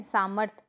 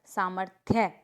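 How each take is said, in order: First: सामर्थ ending on "rth"; incorrect pronunciation. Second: सामर्थ्य ending in "thya"; correct pronunciation. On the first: Teacher showing a mistake, सामर्थ without final ya. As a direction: say सामर्थ as saa-marth. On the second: Teacher correcting the class, सामर्थ्य with final ya. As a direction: say सामर्थ्य as saa-mar-thye. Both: Shown as a demonstration. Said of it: "ये वाला भी आ चुका है".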